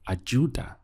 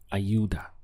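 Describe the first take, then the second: First: The middle consonant sounds like English j. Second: The middle consonant sounds like English y. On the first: This is how it is said in some countries. "you'll hear this more like a J" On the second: This is how it is said where the speaker lives. "But where I am, they say"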